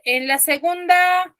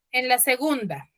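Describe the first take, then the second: First: "en la segunda" drawn out slowly and pitched higher; slow emphasis. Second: Said in the usual way. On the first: Shown as a demonstration. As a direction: stretch "segunda" slowly to point at it. ("en la segunda" dicho lento y más agudo)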